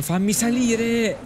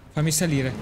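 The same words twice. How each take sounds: First: Real frustrated slow shout; exasperated yell. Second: Said in the usual way. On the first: Real, not acted. Exasperated third attempt.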